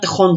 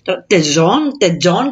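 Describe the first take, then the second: First: The name is pronounced with Spanish sounds. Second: The name is pronounced with American English sounds. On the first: "Εγώ τώρα Tejon τους λέω λόγω... αυτού του κολλήματος που έχουμε την ισπανική γλώσσα" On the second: "κάπως έτσι μπορεί να τους λένε στους Αμερικάς"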